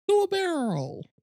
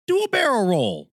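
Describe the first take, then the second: First: Very high cartoon sidekick squeak; squeaky game quote. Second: Higher, louder game sidekick call; game character quote. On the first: Imagined line at the trailer's end. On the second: Retold or imitated. Quoting a Star Fox trailer line.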